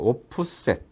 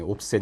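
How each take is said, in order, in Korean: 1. 세 음절로 발음해요. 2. 두 음절로 발음해요. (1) "이제 오프셋" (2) "옵셋이 아니고"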